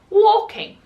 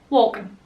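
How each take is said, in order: First: The ending is said as a full 'ing'. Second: The ending is said as a reduced 'in'. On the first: It follows the spelling rule taught in school. "I was saying" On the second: It is how people in the northeast really speak. "That I N G is not there"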